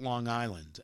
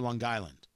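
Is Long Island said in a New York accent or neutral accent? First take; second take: neutral; New York. First: It is said in a neutral American accent. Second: It is said in a strong New York accent. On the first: "I have to work to call it Long Island" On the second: "the only real accent I have left"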